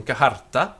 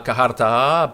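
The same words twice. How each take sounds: First: "kaharta" with a short last A; "kaharta", ending on a quick, unstretched A; short final A. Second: "kaharta" with the last A held long; "kaharta", ending on a drawn-out A; long final A. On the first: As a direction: keep the final vowel of "kaharta" brief. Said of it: "the final A is generally short". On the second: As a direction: draw out the final vowel of "kaharta", slowly. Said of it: "That final A is always long". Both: Shown as a demonstration.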